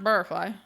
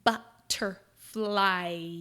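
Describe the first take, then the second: First: Each sound is said casually, without exaggeration. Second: Each sound is over-exaggerated and said slowly.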